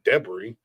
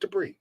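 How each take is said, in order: First: The first syllable sounds like 'Deb'. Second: The first syllable does not sound like 'Deb'. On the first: The speaker calls it wrong. "That sounds like Deb's" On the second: The speaker calls it right. "Just debris"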